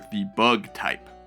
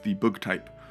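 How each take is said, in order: First: The word bug has an American vowel. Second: The word bug has a non-American vowel.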